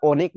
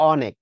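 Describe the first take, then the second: First: অনেক mispronounced as "OH-nek"; wrong closed ও. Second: অনেক with an open "aw" first vowel; correct open অ. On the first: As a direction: start অনেক on a rounded "oh". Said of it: "এটা অনেক না". (অনেক, ভুল করে ও দিয়ে) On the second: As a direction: pronounce অনেক as "AW-nek". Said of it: "এটা হচ্ছে অনেক". (অনেক, শুরুতে খোলা অ) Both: Shown as a demonstration.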